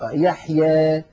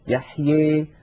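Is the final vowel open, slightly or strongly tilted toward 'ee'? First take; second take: slightly; strongly. First: The final vowel leans slightly toward 'ee'. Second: The final vowel leans strongly toward 'ee'. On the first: "ويخلطون هذا الصوت بشيء من الياء" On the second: "فيخلط صوت الألف بصوت الياء أكثر من هذا"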